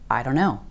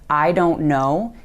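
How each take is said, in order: First: The words blur together in a reduced form. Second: Each word is said fully and separately.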